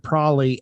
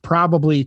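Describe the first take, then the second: First: The word is said in a shortened form. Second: The word is said in its full form. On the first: "to probably" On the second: "we've shortened probably"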